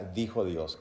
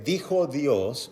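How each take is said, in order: First: Said in the usual way. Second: "dijo Dios" stretched very slowly, dijo stressed; slow emphasis. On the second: Shown as a demonstration. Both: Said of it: "usted debe comprender qué significa".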